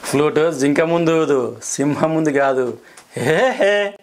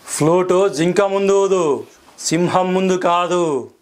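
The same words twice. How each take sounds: First: Funny version. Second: Angry dialogue. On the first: Actor redoes the angry line as comedy, mild laugh. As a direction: play it for laughs with a giggle at the end. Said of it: "ఈ dialogue నేను ఫన్నీగా కూడా చెప్పాను". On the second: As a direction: deliver it slowly like a furious film hero. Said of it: "okay, కోపం". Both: Shown as a demonstration.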